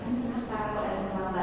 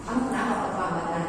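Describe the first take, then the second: First: The question sounds soft and caring. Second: The question sounds sharp and scolding. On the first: The teacher genuinely wants to know the reason. "Itu nasinya beda-beda lagi" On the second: The student is being reprimanded. "kita tidak boleh langsung"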